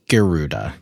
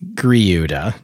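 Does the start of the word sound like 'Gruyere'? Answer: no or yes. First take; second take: no; yes. First: The start does not sound like 'Gruyere'. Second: The start sounds like 'Gruyere'. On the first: The speaker calls it right. "it's Gryuta" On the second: The speaker calls it wrong. "not Gryuta. ... I think you're thinking about cheese"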